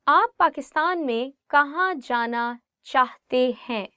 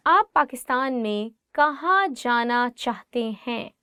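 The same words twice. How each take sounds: The two takes are said the same way.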